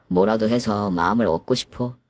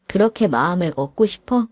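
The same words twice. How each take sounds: First: Meek husband. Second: 그렇게 stressed, sarcastic rising question; mocking echo. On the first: Acted. Husband confides to his wife, low and earnest. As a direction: say 마음을 gently and low. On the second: Wife mocks her husband's wish, sarcastic rise. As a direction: throw his words back at him.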